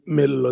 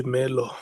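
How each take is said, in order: First: "Mello" with a long double l; correct Mello. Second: "Melo" with a single short l; mispronounced Melo. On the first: Chair explaining how names are said, correct pronunciation. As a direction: say "Mello" as Mel-lo, holding the l. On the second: Chair showing what some people say, mispronounced. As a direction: say "Melo" as Me-lo, the l not held. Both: Shown as a demonstration. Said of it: "they say Melo".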